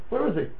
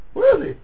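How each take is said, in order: First: Softer, hushed asking; soft question. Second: High, urgent repeat of "Where is he"; high searching cry. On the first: Rabbi wondering where God is in silence, hushed. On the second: Rabbi asking where God is when silent, high and urgent. Rhetorical question repeated, building. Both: Acted.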